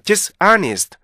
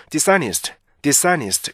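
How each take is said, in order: First: "dishonest" slowly split, dis far apart from honest; Korean learners' rhythm. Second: "dishonest" linked smoothly as di-sa-nist; easy native reading. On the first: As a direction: drop a gap between dis and honest. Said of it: "너무 뚝 떨어져요". ("dishonest"를 디스, 아니스트로 뚝 떨어뜨려서) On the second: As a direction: say "dishonest" easily as one word, no break. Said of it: "굉장히 편하게". ("dishonest"를 편하게 이어서) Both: Shown as a demonstration.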